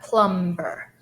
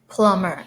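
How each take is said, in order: First: The b sound is clearly pronounced. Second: The b sound is not pronounced. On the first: The speaker calls it wrong. "It's not plumber" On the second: The speaker calls it right. "combination is silent. Silent B. Only plum"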